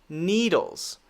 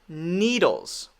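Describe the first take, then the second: Both takes have the same delivery.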